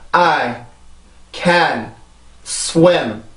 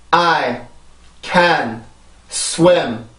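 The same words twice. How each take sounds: No difference in how they are said.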